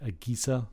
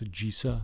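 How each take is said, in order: First: The g is hard, as in go. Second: The g is soft, as in generic. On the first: The speaker calls it wrong. "and not AGESA" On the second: The speaker calls it right. "I think it's AGESA ... since it's the word generic"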